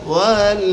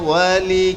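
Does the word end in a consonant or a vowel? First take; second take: consonant; vowel. First: The word ends on the 'l' sound. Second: The word ends on an 'i' vowel. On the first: The speaker calls it wrong. "ওয়াল না ওয়ালি" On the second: The speaker calls it right. "লামের নিচে জের দিয়া পড়তে হবে"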